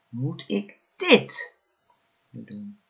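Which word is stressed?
dit. The stress falls on the word dit. "elke keer de klemtoon op een ander woord gelegd"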